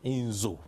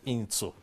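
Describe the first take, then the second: First: The middle consonant is a voiced z sound. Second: The middle consonant is a voiceless s sound. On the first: The speaker calls it right. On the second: The speaker calls it wrong. "not Inzu"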